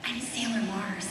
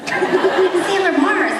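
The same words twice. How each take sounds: First: Said in the usual way. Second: Slow, higher, louder mock superhero claim; dramatic declaration. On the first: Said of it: "and I said". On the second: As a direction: proclaim it grandly with a laugh. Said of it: "he backed away slowly".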